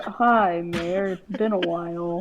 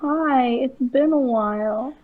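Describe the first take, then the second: First: It is said in a lower voice. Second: It is said in a higher voice.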